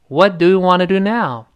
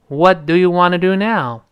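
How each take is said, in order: The two takes are said the same way.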